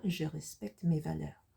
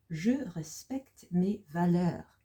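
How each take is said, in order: First: Said in the usual way. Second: Slow French, each word drawn out; slow model reading. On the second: Shown as a demonstration. Teacher introducing sentence eight to learners, slow model reading. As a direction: present the sentence slowly, word by word.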